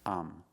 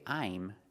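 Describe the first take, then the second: First: The word is reduced to a short 'um'. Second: The word is said fully with a clear vowel. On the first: The speaker calls it right. "You can pronounce I'm as um" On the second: The speaker calls it wrong. "Don't say I'm"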